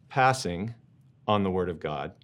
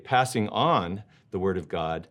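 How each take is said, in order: First: The word "passing" carries the stress. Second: The word "on" carries the stress. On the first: Declining the Word of God, like passing a turn in cards. "If I say it like this" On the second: Handing the Word of God on to others. "On the flip side, to say"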